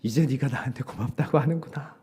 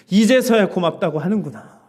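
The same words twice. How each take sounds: First: Said in the usual way. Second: 이제서야 drawn up louder as a reproach; stress on 이제서야. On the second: Retold or imitated. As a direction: lean hard on 이제서야, like the Lord chiding. (이제서야를 크게 강조하며 꾸짖듯) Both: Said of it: "주님께서 그러시더라고요".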